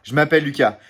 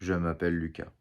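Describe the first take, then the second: First: It is said with emotion, force and pauses. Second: It is said in a flat, neutral tone.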